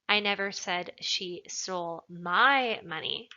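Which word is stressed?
my. The word 'my' is emphasized. She took someone else's money. "Implies that maybe she took somebody else's money"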